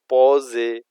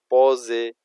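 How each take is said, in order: The two takes are said the same way.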